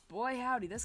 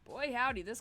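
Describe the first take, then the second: First: It is said in a Southern American accent. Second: It is said in a plain, non-Southern accent.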